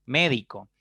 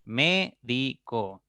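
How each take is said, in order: First: Said in the usual way. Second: "Médico" slowly as mé - di - co; syllable by syllable. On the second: Shown as a demonstration. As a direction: break "Médico" into three slow beats, mé, di, co. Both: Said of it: "pueden descomponerse en tres sílabas".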